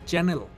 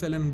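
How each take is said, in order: First: The word starts with a ch sound. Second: The word starts with an s sound. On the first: The speaker calls it right. "It's চ্যানেল" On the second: The speaker calls it wrong. "সেলেন সেলেন বলেন"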